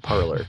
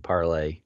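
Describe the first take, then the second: First: The word ends with an English 'er' sound. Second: The word ends with a French-style 'ay' sound. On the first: "I'm Southern, so I typically say parlor" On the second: "It definitely should be Parlay. It's the French word to speak"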